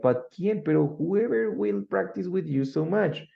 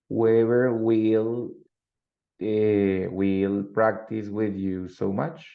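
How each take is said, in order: First: WHOEVER pushed high in an insistent question; emphatic question. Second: Drawn out word by word, rising at the end; slow, deliberate example for learners; slow model sentence. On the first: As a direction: ask it as an emphatic, higher-pitched "but who?". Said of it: "emphatic questions". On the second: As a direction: dictate it slowly, stretching the words. Teacher models example sentence slowly. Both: Shown as a demonstration.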